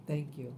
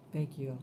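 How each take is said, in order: Both takes have the same delivery.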